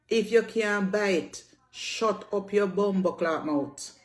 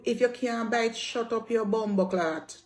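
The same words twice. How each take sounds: First: Slow, each word hammered home; slow emphatic repeat. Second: Said in the usual way. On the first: Real, not acted. Telling critics off, repeating it slowly and pointedly. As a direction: spell it out slowly to make the point stick. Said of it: "repeated slower for emphasis". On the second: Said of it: "repeated for emphasis".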